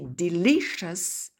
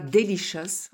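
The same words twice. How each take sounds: First: The stress falls on the second syllable. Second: The stress falls on the last syllable. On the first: The speaker calls it right. "on dit delicious" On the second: The speaker calls it wrong. "on ne dit pas delicious"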